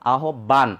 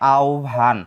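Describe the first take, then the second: First: The word is sounded out letter by letter. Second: The word is said in its standard form. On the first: The speaker calls it wrong. "বানান অনুযায়ী উচ্চারণ করতে যাই" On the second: The speaker calls it right. "প্রমিত উচ্চারণ হবে"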